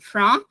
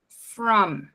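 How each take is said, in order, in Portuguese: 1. O m final é um som nasal com a boca aberta. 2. O m final é feito fechando os lábios.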